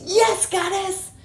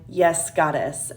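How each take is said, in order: First: High, drawn-out imitated scream; mock scream. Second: Said in the usual way. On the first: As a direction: imitate a man screaming obediently, pitched way up. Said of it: "So he screams". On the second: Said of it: "says in, like, a medium tone".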